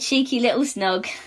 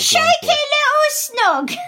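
First: It is said in an ordinary British accent. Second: It is said in a Cockney accent. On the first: "There we go" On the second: "Now say it in the Cockney voice"

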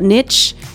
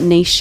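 First: It is pronounced the American way. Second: It is pronounced the Australian way.

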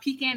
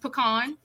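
First: It is said a non-Louisiana way. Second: It is said the Louisiana way. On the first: The speaker calls it wrong. "it's not pecan" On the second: The speaker calls it right. "Louisiana would say pecan"

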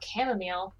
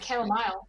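First: It is said with an American pronunciation. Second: It is said with a British pronunciation. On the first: This is the speaker's own usual way. "You could have talked about chamomile" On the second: Other people say it this way. "They say chamomile"

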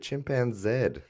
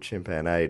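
First: The word ends with a 'zed' sound. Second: The word ends with a 'zee' sound.

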